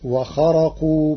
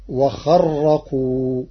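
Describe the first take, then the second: First: "وخرقوا" as wakharaqu, ra undoubled; single ra. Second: "وخرقوا" slow, as wakharraqu with a held, trilled ra; doubled ra. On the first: Teacher naming the word before changing it, single ra. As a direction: say "وخرقوا" with one light ra. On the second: Teacher showing Warsh's reading to listeners, doubled ra. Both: Shown as a demonstration. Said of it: "بتشديد الراء".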